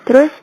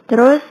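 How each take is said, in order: The two takes are said the same way.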